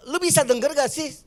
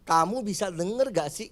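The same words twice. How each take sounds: First: Higher, annoyed "Lu bisa denger gak sih"; rough lu tone. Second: Gentler kamu tone. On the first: Parent scolding a child with rough lu, annoyed. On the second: Parent asking the child gently with kamu, soft. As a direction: ask the child kindly. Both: Shown as a demonstration. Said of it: "Itu aja udah beda".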